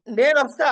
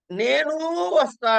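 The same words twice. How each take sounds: First: "నేనొస్తా" pitched higher and louder; rising pitch. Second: "నేను వస్తా" pitched higher and slow; marked tone. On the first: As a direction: lift "నేనొస్తా" up high and loud. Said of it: "ఒక చోట పైకి అంటున్నవాడు". ("నేనొస్తా" పైకి ఎత్తి పలకండి) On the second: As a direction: draw out "నేను వస్తా" slowly on a high pitch. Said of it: "కిందకి అంటున్నావు". ("నేను వస్తా" నెమ్మదిగా పైస్వరంలో) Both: Shown as a demonstration.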